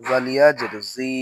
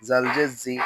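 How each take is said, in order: First: জি with a long i; জি held long; stretched vowel. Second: জি with a short i; no stretch. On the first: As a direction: draw out the vowel of জি. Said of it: "তখন জেরে টান দিব". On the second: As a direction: cut the vowel of জি short. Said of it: "শুধু জের থাকলে টান দিব না". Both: Shown as a demonstration.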